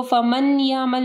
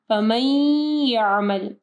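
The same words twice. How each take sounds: First: फमन यामल with a clear separate n; फमन यामल, two separate words with the n sounded; wrong, unmerged demo. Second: फमन यामल slow, n melted into a nasal y; फमन यामल with a long nasal glide; idgham with ghunnah. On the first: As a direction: say "faman ya'mal" quickly, no hum. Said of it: "फमन यामल नहीं पढ़ना". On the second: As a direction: hum through the join of फमन यामल as "famayy-ya'mal". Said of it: "इदगाम आ रहा है गुन्ना के साथ". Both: Shown as a demonstration.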